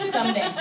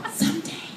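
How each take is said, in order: First: Said in the usual way. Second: High, soft, pining someday; mock wistful. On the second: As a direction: pine hopefully in a small high voice. Second take, mock wistful repeat.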